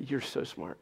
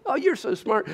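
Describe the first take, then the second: First: Said in the usual way. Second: Put-on high, loud, over-the-top praise for a little boy; gushing praise. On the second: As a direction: gush like a proud parent. Parents praising son at anything.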